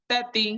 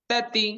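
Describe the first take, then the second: No difference in how they are said.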